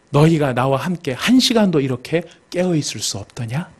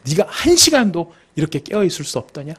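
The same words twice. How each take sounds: First: Said in the usual way. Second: Single him out, leaning on "한 시간도"; pointed reproach. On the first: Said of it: "콕 찍어서 이야기를 하십니다". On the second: Acted. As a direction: stress on "한 시간도", aimed at one person. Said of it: "베드로한테 콕 찍어서". ("한 시간도"를 콕 찍어 책망하듯)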